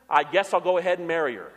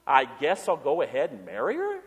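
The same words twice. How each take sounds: First: Reluctant shrug. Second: Incredulous echo. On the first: Retold or imitated. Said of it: "The guy said". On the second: Shown as a demonstration. Pastor mocking the half-hearted groom, incredulous rising echo. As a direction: hand the groom's words back as a doubtful question. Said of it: "There's a lucky bride, huh?".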